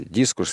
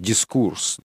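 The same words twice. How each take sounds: First: The stress is on the first syllable. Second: The stress is on the last syllable.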